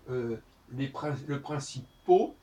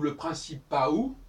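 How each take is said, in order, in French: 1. La terminaison se prononce comme un o simple. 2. La terminaison se prononce comme a-ou. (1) "si on prononce le principaux ou le principaou" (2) "si on prononce le principaux ou le principaou"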